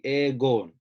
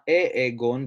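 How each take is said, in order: First: The word starts directly without an extra vowel. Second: An extra short e sound comes before the word. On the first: The speaker calls it right. "So it'd be egon" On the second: The speaker calls it wrong. "not e-egon"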